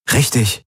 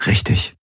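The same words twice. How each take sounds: First: Higher-pitched, pressing check; encouraging prompt for a yes; seeking agreement. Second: Slightly subdued agreement; mildly half-hearted confirmation; attempted smile. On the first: Acted. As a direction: ask her to back you up. Man seeks her agreement. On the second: A narrator's reading. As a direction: agree through a tentative smile. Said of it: "Sie versuchte ein Lächeln".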